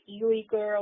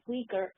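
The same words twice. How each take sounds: First: The word begins with a 'you' sound. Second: The word does not begin with a 'you' sound. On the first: The speaker calls it wrong. "people pronounce it Uyghur or whatever because it begins with U" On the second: The speaker calls it right. "It's actually pronounced Uyghur"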